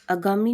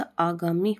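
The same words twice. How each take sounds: First: अगामी with a short opening a; wrong form अगामी. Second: आगामी with a long opening aa; slow आगामी, first vowel held; correct form आगामी. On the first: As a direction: clip only the first vowel of अगामी short. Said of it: "नहीं होता". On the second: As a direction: start आगामी on a drawn-out aah. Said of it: "होता है". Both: Shown as a demonstration.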